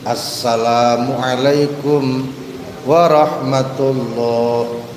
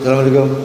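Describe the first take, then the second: First: It is said slowly and calmly. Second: It is said quickly and hurriedly.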